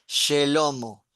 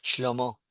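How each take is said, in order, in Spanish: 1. Una vocal corta separa sh y l. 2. Ninguna vocal separa sh y l. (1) "si sigo la regla de la gramática, la llevada se pronunciaría Shelomo" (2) "cuando vos hablas con los hebreos, el nombre de Salomón es Shlomo"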